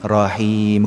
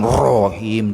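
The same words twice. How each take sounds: First: The r sound is thin and light. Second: The r sound is thick and heavy. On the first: The speaker calls it right. "Tipis saja ra-nya ya" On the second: The speaker calls it wrong. "bukan Rahim, tidak begitu"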